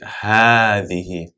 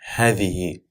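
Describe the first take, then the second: First: The vowel after the first h is long. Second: The vowel after the first h is short. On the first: The speaker calls it right. "as if there's an alif that's added after the ha. So we say" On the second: The speaker calls it wrong.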